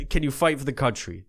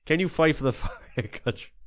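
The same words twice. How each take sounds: First: Said in the usual way. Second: Breaking into laughter mid-question; can't keep a straight face on the repeat; laughing. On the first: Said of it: "repeats line laughing". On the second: Acted. Host repeats his question to soldiers, cracking up.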